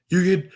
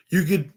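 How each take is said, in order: Both takes have the same delivery.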